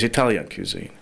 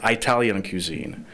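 First: 'Italian' begins with an 'ih' sound. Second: 'Italian' begins with an 'eye' sound. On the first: The speaker calls it right. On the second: The speaker calls it wrong. "It's not"

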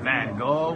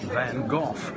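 First: The name ends on a vowel with no 'f' sound. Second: The name ends with an 'f' sound. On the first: This is how Americans say it. "The Americans say Van Gogh" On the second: This is how British people say it. "the British say Van Gogh"

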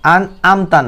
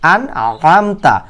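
First: The middle throat consonant is weak. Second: The middle throat consonant is strong. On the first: The speaker calls it wrong. "আন'আমতা না" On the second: The speaker calls it right. "আইন শব্দটি শক্ত করে উচ্চারণ করবেন"

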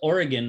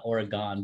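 First: The last syllable sounds like gun. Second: The last syllable sounds like gone. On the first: The speaker calls it right. "It's Oregon, Like a gun" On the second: The speaker calls it wrong. "not Oregon, because there's no E at the end of it"

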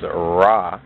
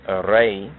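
First: The name ends with an 'ah' vowel. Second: The name ends with an 'ay' vowel. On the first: The speaker calls it wrong. "which is mispronounced as Ra" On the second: The speaker calls it right. "just as Re"

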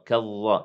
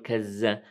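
First: The consonant after ka is an emphatic dh sound. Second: The consonant after ka is a z sound. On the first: "إنها ذال وليس ضاء أيضا كظ لا" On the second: "لا نقول كز"

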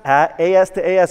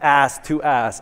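First: AS is spoken as two separate letters. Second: AS is spoken as one single word. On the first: "Is it pronounced AS to AS" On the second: "or is it pronounced ass to ass?"

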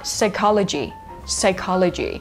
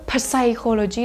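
First: The word begins with an 's' sound. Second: The word begins with a 'p' sound. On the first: The speaker calls it right. "ไม่มีตัว p เราข้ามไปที่ตัว s เลยค่ะออกเสียงว่า" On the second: The speaker calls it wrong. "มันมีตัว p ไงเราก็คิดว่า"

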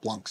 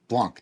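First: The word ends with an audible S sound. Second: The word ends without an S sound. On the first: The speaker calls it wrong. "not Blancs" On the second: The speaker calls it right. "Blanc, not Blancs, you don't say the S in French"

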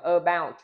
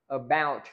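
First: The stress is on the first syllable. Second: The stress is on the second syllable. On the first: The speaker calls it wrong. "chúng ta không đọc là about" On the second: The speaker calls it right. "Chúng ta nhấn âm tiết âm số 2"

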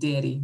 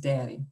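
First: It is said in a Missouri accent. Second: It is said in a standard accent. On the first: This is the family's affectionate name. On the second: This is the ordinary word.

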